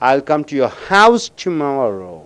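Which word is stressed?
house. The word house is stressed. The speaker will come to the house, not elsewhere. "அந்த ஹவுஸுக்கு அழுத்தம் கொடுக்கும் பொழுது"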